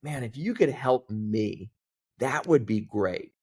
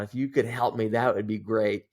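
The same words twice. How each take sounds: First: Slowed down and leaned on "Man, if you could help me"; a slower, pointed plea for help; slow, deliberate repeat. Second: Said in the usual way. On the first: Retold or imitated. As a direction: spell the request out slowly, earnestly. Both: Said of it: "I added that last part of".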